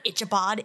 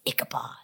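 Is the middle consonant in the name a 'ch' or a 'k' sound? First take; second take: ch; k. First: The middle consonant sounds like 'ch'. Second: The middle consonant sounds like 'k'. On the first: The speaker calls it wrong. "it's not Ichabod" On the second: The speaker calls it right. "it's Ichabod"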